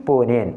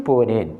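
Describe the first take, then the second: No difference in how they are said.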